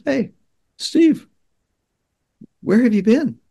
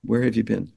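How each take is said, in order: First: Mom's call, much higher and louder; imitating mom calling. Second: Said in the usual way. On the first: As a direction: call out to him like a worried mom. Mom calling to son on beach.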